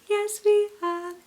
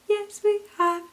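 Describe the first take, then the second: No difference in how they are said.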